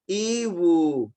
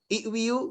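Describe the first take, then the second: First: The word ends with a plain 'wu' sound. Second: The word ends with a 'wiu' sound. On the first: The speaker calls it right. "Sebetulnya dia iwu" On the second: The speaker calls it wrong. "wiu susah"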